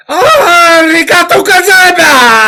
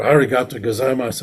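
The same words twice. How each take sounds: First: Much higher and louder, slow booming thanks; samurai shout. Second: Said in the usual way. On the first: Shown as a demonstration. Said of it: "they go". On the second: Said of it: "They say".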